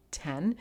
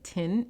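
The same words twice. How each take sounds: First: Said in the usual way. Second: Put-on New Zealand accent, "tin" with a short i like "tin"; light New Zealand accent squeezing ten into "tin". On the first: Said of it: "but it sounded like tin". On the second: Recalling the Air New Zealand flight attendant, New Zealand accent "tin". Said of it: "the guy kept saying ten, but it sounded like tin".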